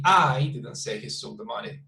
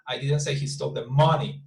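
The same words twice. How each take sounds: First: I emphasized, the rest lower; stress on I. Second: MONEY emphasized at the end; stress on MONEY. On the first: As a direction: lean on the first word, I. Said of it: "the first one will be". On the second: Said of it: "the intonation is super different". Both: Shown as a demonstration.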